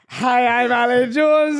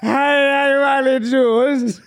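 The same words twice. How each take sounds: First: It is said in a sober-sounding voice. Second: It is said in a drunk-sounding voice.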